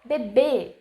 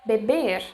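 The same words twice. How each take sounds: First: The final R sound is dropped. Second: The final R sound is pronounced. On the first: It is casual, everyday speech. "Cut the letter R and just say like" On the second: It sounds formal. "instead of"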